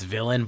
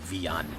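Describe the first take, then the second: First: The name is said with English pronunciation. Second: The name is said with Spanish pronunciation. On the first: "that's the anglicized version" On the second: "the Spanish pronunciation of my name is Villan"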